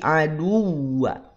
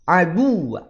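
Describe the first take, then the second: First: The stress falls on the w syllable. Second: The stress falls on the d syllable. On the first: The speaker calls it right. "tapi aduwa yang ditekan wawunya" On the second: The speaker calls it wrong. "bukan aduwa aduwa, bukan"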